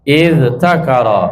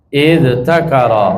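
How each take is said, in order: No difference in how they are said.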